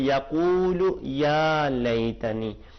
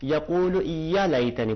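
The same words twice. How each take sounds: First: The vowel in 'ya' is held for two counts. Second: The vowel in 'ya' is short and quick. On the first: The speaker calls it right. "इसको दो बराबर करके पढ़ेंगे" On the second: The speaker calls it wrong. "अगर फकत ज़बर होती उसके बाद अलिफ न होता"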